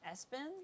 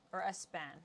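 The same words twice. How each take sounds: First: "Espen" with an English -en ending, rising as a question; unsure pronunciation. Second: "Espan" with the stress moved to a final -AN; alternative pronunciation. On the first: Trying out the artist's name, tentative questioning pronunciation. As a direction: say "Espen?" softly and higher, testing it. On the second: Second guess at the artist's name, stressed on the last syllable. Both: Shown as a demonstration. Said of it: "That accent, I don't know".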